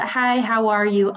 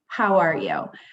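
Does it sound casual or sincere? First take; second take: casual; sincere. First: It sounds like a quick, casual greeting. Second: It sounds like a sincere, caring question.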